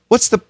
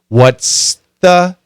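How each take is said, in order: First: Said fast, the TH sound disappears. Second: The TH sound is fully pronounced. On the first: "when we say it fast, the S is a strong sound. That T H can disappear" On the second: "It should be"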